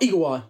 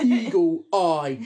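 First: "Eagle Eye" run together very quickly; quick, tossed-off "Eagle Eye"; rushed Eagle Eye. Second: "Eagle Eye" drawn out word by word; exaggeratedly slow, separated "Eagle Eye". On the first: Retold or imitated. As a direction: rattle off "Eagle Eye" as one blurred word. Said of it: "Grandad said it so quick". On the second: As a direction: spell out "Eagle Eye" slowly and emphatically. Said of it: "did pronounce it that slow".

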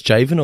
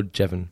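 First: "Javen" with a long A; alternative pronunciation. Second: "Jevon" with a short E; alternative pronunciation. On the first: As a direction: say "Javen" with a JAY start. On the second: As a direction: say "Jevon" with a JEV start. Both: Shown as a demonstration. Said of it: "Do you reckon it's Javen or Jevon".

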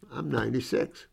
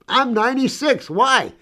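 First: Said in the usual way. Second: Much higher, bright mock reply; tossing back her age, amused; a spry old lady answering higher; lively old woman.

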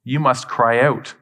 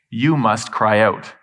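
First: Slow, with "must" punched firmly; stress on MUST. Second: Slow, with "you" leaned on hard; stress on YOU. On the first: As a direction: hit "must" like a command, the rest measured. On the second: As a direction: press the word "you", then let "must cry out" follow slowly. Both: Shown as a demonstration.

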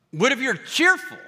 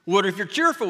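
First: Cheerful. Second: Said in the usual way. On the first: Acted. Shifts to a bright cheerful voice.

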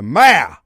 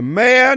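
First: "mayor" clipped to one syllable, like mare; host corrects himself, saying "mayor" as one syllable. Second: "mayor" said in two syllables, may-or; radio host says "mayor" the long two-syllable way. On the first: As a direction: squeeze "mayor" into a single beat, rhyming with mare. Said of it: "I got too many syllables in there". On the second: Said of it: "Did I say mayor? I got too many syllables in there". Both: Shown as a demonstration.

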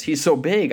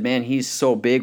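First: Higher, eager acted confidence; gleeful can-do retelling; confident David. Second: Mildly defeated, near usual pitch; understated acted discouragement; daunted soldiers. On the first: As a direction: relish it as an easy target. David relishes the huge target. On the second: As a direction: say it as an impossible obstacle.

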